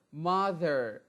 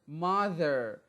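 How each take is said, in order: Both takes have the same delivery.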